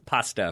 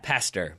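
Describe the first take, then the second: First: The final r sound is dropped, like pasta. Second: The final r sound is clearly pronounced. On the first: The speaker calls it wrong. "not friendly everyday pas- pasta for those who might have had trouble with that accent" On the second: The speaker calls it right. "Pa- pastor, by the way"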